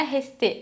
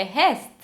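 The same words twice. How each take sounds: First: RESTÉ com TÊ tônico no fim; E final pronunciado. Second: RESTE numa sílaba, termina em ST; E final mudo. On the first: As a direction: diga RESTÉ acentuando o E final. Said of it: "não é resté". (RESTÉ em duas sílabas, final forte) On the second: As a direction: diga RESTE à francesa, sem o E. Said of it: "esse E não tem acento". (RESTE com R gutural e fim mudo) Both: Shown as a demonstration.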